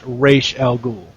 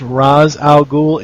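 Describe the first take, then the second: First: The name is said differently from its spelling. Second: The name is read as it is spelled. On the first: "it's pronounced" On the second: "it shows as"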